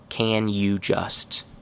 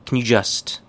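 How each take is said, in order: First: Each of the three words is said in full. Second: The words are run together, with the middle barely kept. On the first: "Very correct, but nobody actually says it this way" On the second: "More correct"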